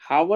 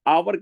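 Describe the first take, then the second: First: The word begins with an h sound. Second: The word begins with a vowel sound. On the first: The speaker calls it wrong. "हावर नहीं कहते" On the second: The speaker calls it right. "आवर कहते हैं"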